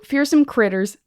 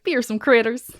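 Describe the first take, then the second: First: It is said in the speaker's ordinary accent. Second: It is said in an exaggerated put-on accent.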